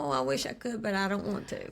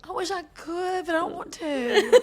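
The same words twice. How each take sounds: First: Repeating the quote. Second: Mimicking quote, laughing. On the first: Retold or imitated. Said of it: "Say that one more time". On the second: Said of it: "echoing the quote back".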